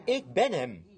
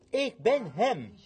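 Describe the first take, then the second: First: Said in the usual way. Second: "ik ben hem" stretched slow, each word weighted; slow it right down and lean on ben; slow emphatic repeat. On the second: Shown as a demonstration. Preacher quotes Jesus, slowed.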